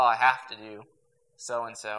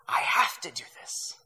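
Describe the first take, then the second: First: It sounds reluctant and put-upon. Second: It sounds eager, passionate and urgent.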